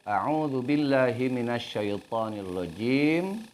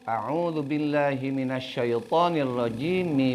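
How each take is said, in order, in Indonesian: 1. Berakhir dengan m mati, lalu napas. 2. Huruf m diberi vokal dan langsung bersambung. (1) "Berhenti, ambil nafas" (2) "mimnya dibaca sebagaimana harkat kasroh"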